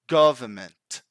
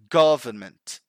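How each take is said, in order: First: The N before the M is barely pronounced. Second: The N before the M is barely pronounced.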